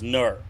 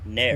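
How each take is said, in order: First: The vowel sounds like 'err'. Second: The vowel sounds like 'air'. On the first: The speaker calls it wrong. "I always thought N E R was Ner" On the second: The speaker calls it right. "it's pronounced N A I R, Nair"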